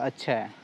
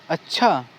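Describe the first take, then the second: First: It is said in a neutral, ordinary tone. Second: It is said in a surprised tone.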